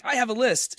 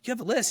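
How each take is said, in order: First: "I have a list" as a statement, falling at the end; lifted, declarative "I have a list"; retold announcement. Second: "You have a list" thrown back as a question; imitated questioning "You have a list?"; retold echo question. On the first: Retold couple game, his announcement. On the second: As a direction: query it, pitch jumping high on LIST.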